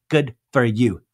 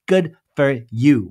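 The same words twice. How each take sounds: First: Said in the usual way. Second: Slow, louder, dragged-out "Good for you"; slow sarcastic. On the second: Retold or imitated. Whitney mocking Heather's bestseller boast, slow and louder. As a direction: lean on each word of "Good for you" with sarcasm.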